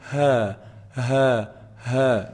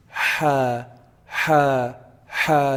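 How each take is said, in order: First: Ha as a light breath from the bottom of the throat; ha, ha, ha, just air; plain breathy ha. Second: Ha with friction in the middle of the throat; ha, ha, ha, raspy from the throat; Arabic ha from mid-throat; throaty ha. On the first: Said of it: "the air that just comes out from the bottom". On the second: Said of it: "feeling some vibration in the middle part". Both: Shown as a demonstration.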